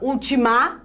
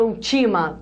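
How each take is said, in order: First: The stress is on the last syllable. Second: The stress is on the middle syllable. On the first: "Ninguém fala ultimar" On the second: "ninguém fala ultima"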